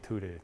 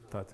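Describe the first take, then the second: First: The name is said in an Italian way. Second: The name is said as a short 'tut'. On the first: The speaker calls it wrong. "I keep saying tutte, like it was Italian" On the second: The speaker calls it right. "That's how you pronounce it, tut?"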